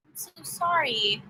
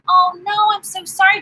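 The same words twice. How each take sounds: First: Slow, whispered I'm so sorry; hushed, heartfelt condolence; whispered sympathy. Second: Higher, louder, rising I'm so sorry; shocked sympathy that lifts at the end; dismayed sympathy. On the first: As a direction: breathe the sorry softly and slowly. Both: Real, not acted. Hearing a viewer was hospitalised.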